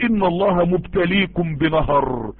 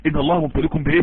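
First: Slow, measured recitation of the verse; quoting scripture slowly to the audience; slow quoted verse. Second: Preacher quizzes listeners on the verse; quizzing question. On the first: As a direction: lay each word of إن الله مبتليكم بنهر down slowly. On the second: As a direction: lower voice, question lift on بإيه. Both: Shown as a demonstration.

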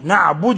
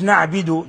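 First: نعبد said as na'budu, with a u; correct damma. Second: نعبد said as na'bidu, with an i; wrong vowel. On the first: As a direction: clear u after the b in نعبد. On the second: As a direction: show the mistake, i after the b in نعبد. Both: Shown as a demonstration. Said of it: "مش نعبد".

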